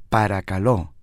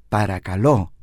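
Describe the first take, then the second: Both takes have the same delivery.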